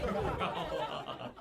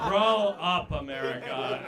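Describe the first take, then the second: First: "Grow up" breathed out through a laugh; laughing repeat. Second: Mock scolding shout. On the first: Acted. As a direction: let "Grow up" dissolve into laughter. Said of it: "repeat through laughter". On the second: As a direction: yell "grow up" at the audience. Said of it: "crowd scolded".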